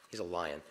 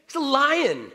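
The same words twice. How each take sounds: First: Quiet. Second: Much higher and louder declaration of He's a lion; loud, high proclamation; emphatic. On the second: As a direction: proclaim it with full force. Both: Shown as a demonstration.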